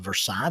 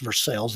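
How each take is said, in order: First: The word is said with a French pronunciation. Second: The word is said with an American pronunciation. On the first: This is how the original French word is said. "instead of Versailles" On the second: This is how the Kentucky town says it. "pronounced Versailles"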